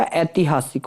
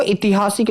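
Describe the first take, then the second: First: "ऐतिहासिक" lower and softer, starting with ai; ai opening. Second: "ऐतिहासिक" starting with i; short i opening. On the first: Teacher giving students the correction, ऐतिहासिक said "aitihaasik". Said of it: "ऐतिहासिक होता है". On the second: Teacher showing students the mistake, ऐतिहासिक said "itihaasik". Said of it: "ऐतिहासिक नहीं होता". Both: Shown as a demonstration.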